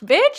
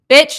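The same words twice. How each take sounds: First: It is said in a happy, delighted tone. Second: It is said in a disapproving, disappointed tone. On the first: The news is welcome. "I'm like oh like happy like oh" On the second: The news is unwelcome. "the intonation changes"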